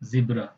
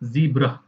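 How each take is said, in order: First: The first vowel is short, as in 'bed'. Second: The first vowel is long, as in 'see'. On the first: "हम लोग British में क्या बोलते हैं" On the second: "American English में क्या बोलते हैं"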